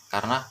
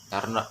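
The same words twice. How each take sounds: The two takes are said the same way.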